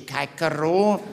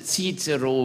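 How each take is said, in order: First: The first syllable sounds like 'kai'. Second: The first syllable sounds like 'sis'. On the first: The speaker calls it wrong. "We do not say Caicero" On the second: The speaker calls it right. "We correctly pronounce Cicero"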